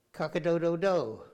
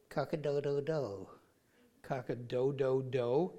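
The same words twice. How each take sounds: First: Crowed cock-a-doodle-doo, a bit higher and louder; hammed-up rooster call; mock rooster crow. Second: Deflated rooster attempt; weaker rooster crow. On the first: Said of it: "Can you say cock-a-doodle-doo?". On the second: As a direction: try the crow again but lamely.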